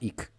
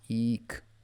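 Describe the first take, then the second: First: The vowel is short and clipped. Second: The vowel is drawn out and long. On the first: The speaker calls it wrong. "It's not ik" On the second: The speaker calls it right. "It's an elongated ik"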